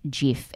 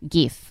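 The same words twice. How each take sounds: First: The word starts with a soft G sound. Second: The word starts with a hard G sound. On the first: The speaker calls it right. "It's not a hard G" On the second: The speaker calls it wrong. "Which is what I always thought because it stands for graphic interchange format"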